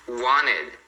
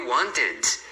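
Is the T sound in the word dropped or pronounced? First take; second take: dropped; pronounced. First: The T sound after the N is dropped. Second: The T sound after the N is pronounced.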